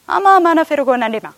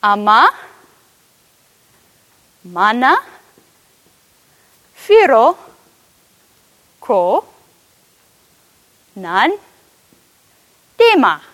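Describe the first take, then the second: First: Said in the usual way. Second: Each Oromifa word alone with long pauses; slow word by word Oromifa. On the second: Shown as a demonstration. Preacher shows the Oromifa sentence to the room, slow word by word. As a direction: teach "Ama, mana, firo, ko, nan, dema." slowly, word by word. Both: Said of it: "you would say".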